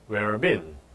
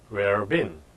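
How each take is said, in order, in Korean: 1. 'Have you'는 거의 없을 정도로 약하게 발음됩니다. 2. 'Have you'는 거의 없을 정도로 약하게 발음됩니다.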